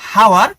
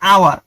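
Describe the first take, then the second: First: The word starts with an h sound. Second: The word starts with a vowel sound. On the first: The speaker calls it wrong. "হওয়া উচিত ছিল হাওয়ার" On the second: The speaker calls it right. "কিন্তু উচ্চারণ হয়েছে আওয়ার"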